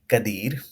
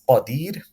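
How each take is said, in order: First: The first consonant is a plain k. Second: The first consonant is deep and heavy. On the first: The speaker calls it wrong. "Is incorrect to say kadir" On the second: The speaker calls it right. "this is qadir"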